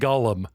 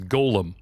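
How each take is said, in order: First: The word sounds like the name Gollum. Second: The word does not sound like Gollum. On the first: This is how the other person says it. "I love how you call it golem" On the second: This is the usual pronunciation of the creature. "the pronunciation of the creature is golem"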